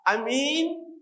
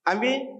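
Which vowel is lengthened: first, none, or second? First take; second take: second; none. First: The second vowel is held long. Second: No vowel in the word is lengthened. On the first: It means a trustworthy person. "kemudian minnya ahkamul" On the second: It means: believe. "amin tidak ada panjangnya, tidak ada ahkamul matnya"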